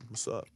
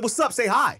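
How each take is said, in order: First: Real quiet. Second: High, loud retold scolding; loud demand. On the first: Retold or imitated. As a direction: imitate a barely audible hello, much softer. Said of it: "Like that, real quiet". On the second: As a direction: re-enact demanding a proper greeting. Loud retort to the quiet greeting.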